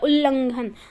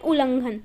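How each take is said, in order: First: The word is pronounced carefully, with full sounds. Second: The word is pronounced loosely, as in everyday speech. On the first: This is the standard pronunciation. "इसका उच्चारण वैसे होता है" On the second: This is how people say it in everyday talk. "हम क्या बोलते हैं बोलचाल की भाषा में"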